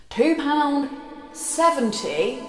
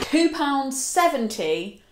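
First: Two pound seventy, high, drawn out with a rising seventy; repeated for the back. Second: Two pound seventy, slow and high with a rise; slow proud price. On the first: Vlogger repeats the bargain price to viewers at the back, drawn out. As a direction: announce it again to the back row. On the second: Vlogger proudly announces the jacket's bargain price, slow and high. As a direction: savour each word of the bargain price. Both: Shown as a demonstration. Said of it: "I'll repeat that if you didn't hear in the back".

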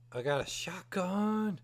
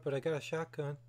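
First: Slow breathless whisper of delight; excited whisper. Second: Said in the usual way. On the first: Real, not acted. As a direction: whisper it like a secret treasure. Excited over finding a shotgun.

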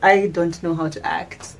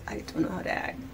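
First: Said in the usual way. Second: Whispered repeat. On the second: Shown as a demonstration. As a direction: breathe it as a whisper.

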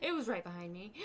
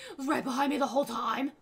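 First: Said in the usual way. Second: Loud laughing exclaim; laughing loudly. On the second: Real, not acted. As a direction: blurt it out while laughing. Startled, laughing at spider.

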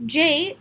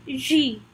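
First: Said in the usual way. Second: J said the French way, "zhee"; French letter name. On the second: Shown as a demonstration. Teacher shows learners the French letter, J said as "zhee". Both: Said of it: "J is pronounced as J".

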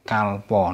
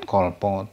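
First: "kalpo" said "kahl-paw", first vowel open ah; "kalpo" with ah before the l. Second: "kolpo" said "kawl-paw", first vowel rounded o; "kolpo" with o before the l; wrong O vowel. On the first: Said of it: "penultimate syllable with al doesn't follow". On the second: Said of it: "not kolpo". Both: Shown as a demonstration.

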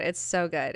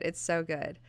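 First: Said in the usual way. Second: The repeat dropped much softer, to herself; softer echo. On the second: Real, not acted. Fan repeating her praise to herself, softly. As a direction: say it again quietly, savouring it.

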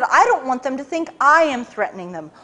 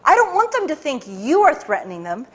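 First: I am stressed. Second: You stressed. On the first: Boss correcting his agent, stressing I am. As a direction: lean on I am. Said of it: "he said". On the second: Boss correcting his agent, stressing you. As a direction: lean on you. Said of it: "No, no". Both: Retold or imitated.

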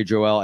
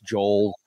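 First: "Joel" said as Jo-EL; two-syllable mispronunciation. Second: "Joel" as one syllable, rhyming with knoll; one-syllable pronunciation. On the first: Guest shows how some people say his name, mispronounced. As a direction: split "Joel" into Joe and L. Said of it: "Some people say". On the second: Guest corrects his name for the host, one syllable. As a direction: run "Joel" together as Jole, no second vowel. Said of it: "like Noel". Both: Shown as a demonstration.

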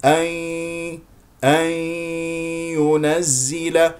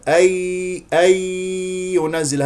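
First: Slow أن ينزل with a long hum through the nose; correct nasal merging. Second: High, slow أي ينزل with no nasal hum; pure Y, wrong. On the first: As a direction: merge ن into ي with ghunna in أن ينزل. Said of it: "هذا هو الصحيح". (أن ينزل بغنة من الخيشوم) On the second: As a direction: hold a clean oral ي in أي ينزل. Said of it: "هذه ياء صافية". (أي ينزل بياء صافية دون غنة) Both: Shown as a demonstration.

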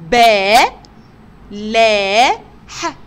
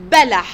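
First: با، لا، ح loud and separate, long "baa, laa", short "ha"; teacher loudly spelling با، لا، ح, stretched then short. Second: Said in the usual way. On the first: Shown as a demonstration. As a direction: sound it out syllable by syllable with clear gaps. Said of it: "تعالوا نتهجى كده مع بعض". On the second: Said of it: "في كلمة بلح".

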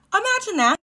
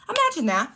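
First: Much higher, louder "Imagine that". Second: Higher "Imagine that". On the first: Inviting viewers to picture it, high and emphatic. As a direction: push "Imagine" way up. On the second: Inviting viewers to picture it, raised. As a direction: lift "Imagine" up. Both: Shown as a demonstration.

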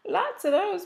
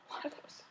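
First: Higher, bright emphatic restatement; emphatic repeat. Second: Breathy unvoiced whisper to herself; whispered aside. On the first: Repeats the aside out loud. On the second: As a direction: confide it under your breath. Muttered aside, then repeated aloud. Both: Real, not acted.

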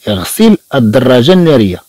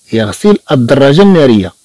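Both takes have the same delivery.

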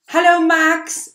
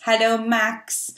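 First: Excited greeting. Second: Said in the usual way. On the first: Shown as a demonstration. Greeting the friend Max.

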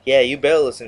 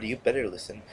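First: Louder, punchy threat; loud warning. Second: Quiet warning. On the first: Gamer warning Infinity Ward, raised voice. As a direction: call the developers out loud and firm. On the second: Gamer repeating the warning to Infinity Ward, softly. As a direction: say it under your breath, menacing. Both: Acted.

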